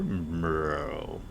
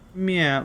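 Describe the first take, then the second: First: A very low, deep meow. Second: A pitiful, higher-pitched meow.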